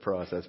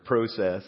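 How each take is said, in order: First: The word is said in a non-Canadian way. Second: The word is said in a Canadian way. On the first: "instead of" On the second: "I've been in Canada this week... I also learned how to say some other English words"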